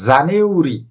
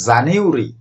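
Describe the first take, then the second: First: It has three syllables; the 'ah' sound is silent. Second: It has three syllables; the 'ah' sound is silent.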